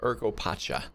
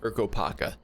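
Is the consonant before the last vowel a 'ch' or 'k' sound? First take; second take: ch; k. First: The last syllable starts with a 'ch' sound. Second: The last syllable starts with a 'k' sound. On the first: The speaker calls it right. "not Urkopacha" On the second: The speaker calls it wrong. "I was thinking it was pronounced Urkopaka"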